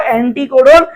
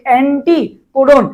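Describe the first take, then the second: First: Said in the usual way. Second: anticodon drawn out slowly, টি picked out; stress on টি. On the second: Shown as a demonstration. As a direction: break up anticodon slowly to show the টি. (Anticodon ধীরে, টি-তে জোর দিয়ে) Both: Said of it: "টি বেশি উচ্চারণ হচ্ছে".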